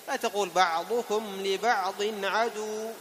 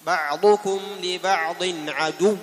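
First: عدو with its final waw lengthened, said slowly; wrong madd on عدو. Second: عدو slow and loud with a doubled waw; correct shadda. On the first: Teacher demonstrates the mistaken عدو. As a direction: stretch the waw of عدو too long. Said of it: "خطأ". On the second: Teacher models the correct عدو. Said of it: "هذه الواو مشددة". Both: Shown as a demonstration.

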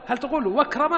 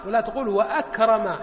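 First: واكرم with the hamza dropped, run together as wakrem; wrong elided hamza. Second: وأكرم with a clear glottal stop, wa-akrim; hamza pronounced. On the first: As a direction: say واكرم as wakrem, no glottal stop. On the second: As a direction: sound the hamza in وأكرم distinctly. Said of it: "تنطق بهمزة القطع". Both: Shown as a demonstration.

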